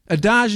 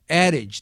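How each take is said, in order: First: The word is said with a French pronunciation. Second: The word is said with an English pronunciation. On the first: The speaker calls it wrong. "Adage if we're in France, but we're not in France" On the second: The speaker calls it right. "adage, not adage"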